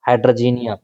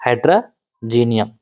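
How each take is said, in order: First: Said in the usual way. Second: "हाइड्रोजीनियम" slow and lower, in two parts; term broken down. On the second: Shown as a demonstration. Teacher answering own question to students, slowly dividing the term. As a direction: break "हाइड्रोजीनियम" apart slowly, pausing midway.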